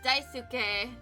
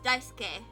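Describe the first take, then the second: First: The u after the s is pronounced. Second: The u after the s is silent. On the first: The speaker calls it wrong. "you don't pronounce it as Daisuke" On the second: The speaker calls it right. "but just Daisuke. So you kind of like say it as if it didn't have the U in it"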